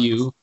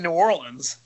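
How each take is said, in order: First: It is clipped to sound like 'Nawlins'. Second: It is said in full as 'New Orleans'. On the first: The speaker calls it right. "It's N-A-W-L-I-N-S" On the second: The speaker calls it wrong. "You don't say New Orleans"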